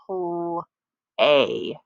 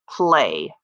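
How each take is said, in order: First: The sounds are said slowly and separately. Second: The sounds are blended into one smooth word.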